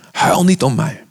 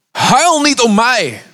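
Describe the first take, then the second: First: Steady and measured, stress on "niet"; calm repeat. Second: Much higher, louder and slow, pleading "Huil" drawn out; anguished plea. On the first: Preacher rereading Jesus's words to the women, calmer and measured. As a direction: say it plainly this time, stressing "niet". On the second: Jesus under the cross turning to the weeping women, anguished slow plea. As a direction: cry out as a suffering Jesus. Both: Acted.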